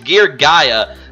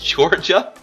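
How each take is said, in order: First: The name is said as two words, "Gear Gaia". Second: The name is said as one word, "Georgia". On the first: The speaker calls it right. "It's Gear Gaia" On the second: The speaker calls it wrong. "I kept calling this Georgia"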